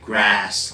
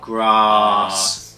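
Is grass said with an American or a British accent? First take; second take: American; British. First: It has a short flat 'a' vowel, American style. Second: It has a long open 'ah' vowel, British style. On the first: "Whereas in American, you'd probably hear grass" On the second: "Where I'm from ... Ah, grass, fast"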